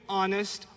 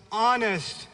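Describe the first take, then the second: First: Said in the usual way. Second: "honest" hit firmly the second time; stress on honest. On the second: Shown as a demonstration. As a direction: lean hard on "honest".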